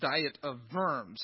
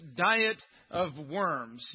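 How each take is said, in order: First: Worms is said with a German pronunciation. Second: Worms sounds like the English word worms. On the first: "the German pronunciation is Diet of Worms" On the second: "that's how we pronounce it in English"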